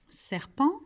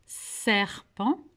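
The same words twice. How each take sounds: First: Said in the usual way. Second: "Serpent," with a long, drawn-out "ser"; first syllable highlighted. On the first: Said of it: "Est-ce que vous pouvez me dire pourquoi". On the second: Shown as a demonstration. Teacher showing the shared syllable, "Serpent," with its start held. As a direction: stretch the opening of "Serpent," before finishing it. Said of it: "ça commence par la syllabe serre".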